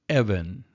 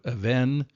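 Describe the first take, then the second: First: The stress is on the first syllable. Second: The stress is on the last syllable. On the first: The speaker calls it right. "the accent you'll notice changes to the first syllable" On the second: The speaker calls it wrong. "instead of even"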